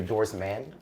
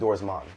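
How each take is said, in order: First: The last syllable has the vowel of 'man'. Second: The last syllable has the vowel of 'mon'. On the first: The speaker calls it wrong. "I always hear Doris Man" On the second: The speaker calls it right. "it's literally Doris Mon, kind of like how Jamaicans would say it"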